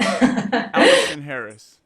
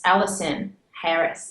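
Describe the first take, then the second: First: Loud, slow mock-British accent; imitated British accent. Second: "Allison Harris" said slowly in a British accent; British pronunciation. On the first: Host copying guest's name, loud drawn-out British accent. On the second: Shown as a demonstration. Guest showing host her name, slow British pronunciation. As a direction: show how "Allison Harris" sounds in British English. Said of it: "how does it sound like over there".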